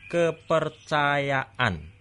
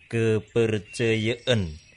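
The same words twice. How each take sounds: First: The A vowels are pronounced fully and open. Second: The A vowels sound close to E. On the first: The speaker calls it right. "Vokal A dimanapun berada dibaca kuat" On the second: The speaker calls it wrong. "kita jangan sampai malu membuka mulut sehingga vokal A terdengar E"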